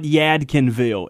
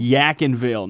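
First: The d sound in the middle is pronounced. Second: The d sound in the middle is dropped. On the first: This marks the speaker as an outsider. The speaker calls it wrong. "you pronounce it all the way through" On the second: This is how locals say the name. The speaker calls it right. "No D"

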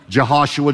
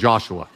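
First: The name is said in its full, longer form. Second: The name is said quickly in a shortened form.

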